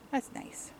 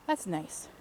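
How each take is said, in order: First: Breathy whispered echo; whispering. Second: Soft, low-key remark; quiet. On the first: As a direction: whisper it under your breath. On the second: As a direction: say it softly to yourself. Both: Real, not acted. Repeats remark, then whispers it.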